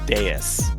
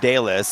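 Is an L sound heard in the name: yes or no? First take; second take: no; yes. First: The name is said without an L sound. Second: The name is said with an L sound. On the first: "the H L are probably silent" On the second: "that's what I've been calling you all this time"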